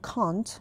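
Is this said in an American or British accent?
British. It is said in a British accent. "توی بریتیش میگن"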